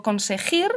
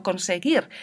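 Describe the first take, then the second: First: Conseguir with the u sounded, as conseg-u-ir; teacher showing students the mistaken form; wrong pronunciation. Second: Conseguir with a soft g and a silent u; teacher giving students the right form, softly; correct pronunciation. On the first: Teacher demonstrating conseguir wrongly with the u pronounced. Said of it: "Yo no digo". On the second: Teacher demonstrating conseguir correctly with the u silent. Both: Shown as a demonstration.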